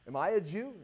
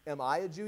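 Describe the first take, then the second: First: It is said in a mouthy, sarcastic tone. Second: It is said as a plain, sincere question.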